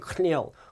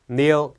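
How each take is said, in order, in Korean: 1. k는 n 앞에서 발음됩니다. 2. k는 묵음이라 n으로 시작합니다. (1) "K가 있다고 해서 발음이 kneel, kneel 이렇게 되는 건 아니고요" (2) "K가 묵음이 되기 때문에 kneel이 되는데"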